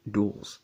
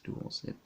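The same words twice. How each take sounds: First: Said in the usual way. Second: "Duels" breathed out in a whisper; whispered retry. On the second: Shown as a demonstration. Vlogger testing the word "Duels" in a whisper. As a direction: whisper "Duels" to hear how it sounds. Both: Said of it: "sounds weird when I say it".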